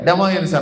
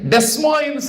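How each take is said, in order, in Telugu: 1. మొదటి అచ్చు తర్వాత s ధ్వని వినిపించదు. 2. మొదటి అచ్చు తర్వాత s ధ్వని వినిపిస్తుంది. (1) "అనాలంటే" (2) "అనకూడదట"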